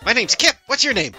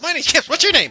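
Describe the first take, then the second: First: It is said slowly. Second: It is said fast.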